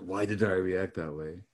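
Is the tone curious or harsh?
harsh. It is asked in a harsh, critical tone.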